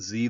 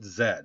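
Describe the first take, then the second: First: The letter is said the American way. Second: The letter is said the British way. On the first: "We call it Z" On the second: "they call it Z"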